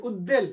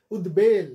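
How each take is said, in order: First: উদ্বেল said as ud-del, no b; mistaken doubled d. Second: উদ্বেল said as ud-bel with a clear b; b sounded. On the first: Teacher quoting a common mistake, ud-del. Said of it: "কত যে ভুল উচ্চারণ". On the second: Teacher correcting a common mistake, ud-bel with b. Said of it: "আসলে উচ্চারণটা". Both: Shown as a demonstration.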